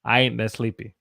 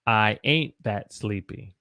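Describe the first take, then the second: First: "I ain't that sleepy" run together, Southern style; quick, slurred-together Southern dialect; Southern accent. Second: "I ain't that sleepy" slowed down, each word separate; careful pronunciation. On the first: Teacher shows how it really sounded, connected Southern accent. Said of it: "it sounded like". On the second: Teacher breaks down "I ain't that sleepy" for learners, slow and separated. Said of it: "but the way I said it was". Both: Shown as a demonstration.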